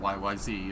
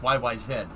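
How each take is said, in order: First: The letters are said in an American way. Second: The letters are said in a Canadian way. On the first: "if you speak American" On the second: "in Canadian"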